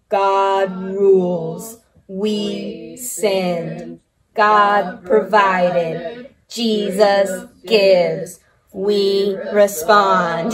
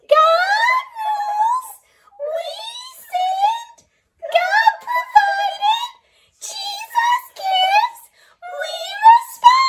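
First: It is said in a robotic voice. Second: It is said in a high, squeaky voice.

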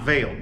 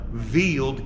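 First: The word ends without a final d sound. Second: The word ends with a final d sound. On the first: The speaker calls it wrong. "not veil" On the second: The speaker calls it right. "this is actually the veiled chameleon"

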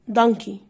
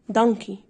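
Both takes have the same delivery.

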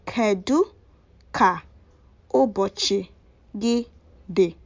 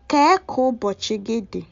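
First: The opening word is said in full as kedu. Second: The opening word is shortened to ke. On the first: "some do say "Kedu ka ubochi gi di?"" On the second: "the kedu will be wrapped up to become ke"

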